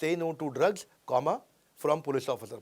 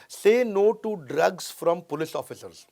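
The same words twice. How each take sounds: First: "drugs" lifted, then "comma" said aloud and a break; spoken comma pause. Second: One unbroken phrase from "say" to "officers"; no comma pause. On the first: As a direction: split "drugs" from "from police officer" with a spoken comma. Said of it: "जबकि होना क्या चाहिए था". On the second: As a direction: run "drugs from police officers" together without a break. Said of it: "एक comma ना लगने के कारण". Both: Shown as a demonstration.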